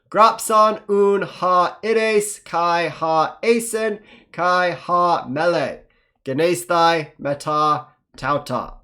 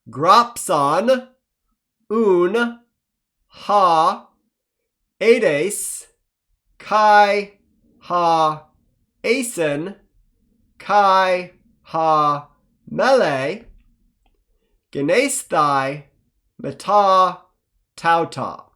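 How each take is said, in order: First: It is read faster. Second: It is read slowly.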